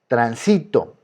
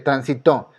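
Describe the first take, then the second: First: The stress is on the second syllable. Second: The stress is on the third syllable. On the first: "se encuentra en la penúltima" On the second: "aquí cae la fuerza y es una palabra aguda, está en la primera y en la última"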